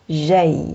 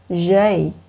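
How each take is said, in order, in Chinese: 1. 这个字母名的发音是法语的。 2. 这个字母名的发音是法语的。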